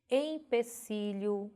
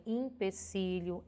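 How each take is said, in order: First: "Empecilho" slowly, opening on nasal EM; careful spelling pronunciation. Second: "empecilho" opening on IM, "im-pe-cilho"; popular pronunciation. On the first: Teacher presenting the written form, "Empecilho" with EM. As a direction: draw out "Empecilho" with an E first. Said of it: "é escrita com E". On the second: Teacher quoting how people say "empecilho", with IM. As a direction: swap the first E of "empecilho" for I. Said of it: "apesar de as pessoas pronunciarem". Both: Shown as a demonstration.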